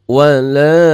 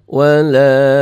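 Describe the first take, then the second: The two takes are said the same way.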